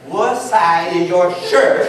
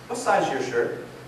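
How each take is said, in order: First: It is said slower and louder. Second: It is said at a normal pace and volume.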